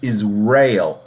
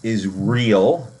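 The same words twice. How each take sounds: First: The word ends sounding like 'ale'. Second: The word ends sounding like 'real'. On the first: The speaker calls it right. "it's Israel. I S R, is, er, Ale" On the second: The speaker calls it wrong. "it's not pronounced Israel"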